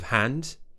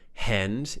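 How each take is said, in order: First: The vowel sounds like an open 'ah'. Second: The vowel sounds closer to 'eh'. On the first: The speaker calls it right. "Make sure that tongue is pushed down, mouth is open" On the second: The speaker calls it wrong. "pronouncing it in more of an American way and saying eh"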